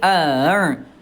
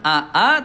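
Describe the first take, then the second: First: The second glottal stop is softened and unclear. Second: Both glottal stops are pronounced clearly and fully. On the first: The speaker calls it right. "tashil, hamzah yang keduanya dia dibuat mudah. Ya, jadi tidak jelas hamzahnya" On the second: The speaker calls it wrong. "bukan aa"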